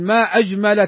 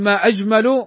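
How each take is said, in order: First: The word ajmal ends with an a vowel. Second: The word ajmal ends with a u vowel. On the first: It exclaims at how beautiful something is. "وافتحي فاك ... ما أجمل كذا تتعجب من حسنها" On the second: It asks what is most beautiful. "لما تقول ما أجمل كأنها تستفهم"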